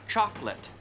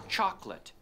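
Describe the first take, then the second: The two takes are said the same way.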